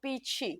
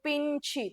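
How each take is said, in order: First: The nasal is pronounced softly on the vowel. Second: The nasal is pronounced strongly and separately. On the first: The speaker calls it right. "તમે એમ જ કહો" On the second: The speaker calls it wrong. "તમે એમ ન કહો"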